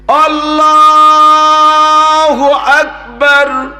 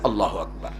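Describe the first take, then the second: First: It is drawn out slowly. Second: It is said quickly and short.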